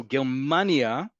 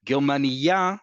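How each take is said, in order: First: Slow "Germania" with a drawn-out MA, ger-MAA-nia; second-to-last syllable stress. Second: "Germania" with the beat on the end, ger-ma-ni-YA; last-syllable stress. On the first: Teacher letting students hear the country name, "Germania" slowly stressed second to last. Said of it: "The emphasis is on the second to last syllable". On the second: Teacher letting students hear the difference, "Germania" stressed on the last syllable. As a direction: land hard on the final "ya" of "Germania". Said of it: "the emphasis is on the last syllable". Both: Shown as a demonstration.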